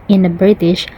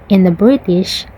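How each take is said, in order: No difference in how they are said.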